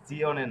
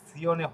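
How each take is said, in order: First: The z is a voiced dz sound. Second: The z is a voiceless ts sound. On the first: The speaker calls it wrong. "জিওনে না" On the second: The speaker calls it right. "এখানে সিওনে হবে।"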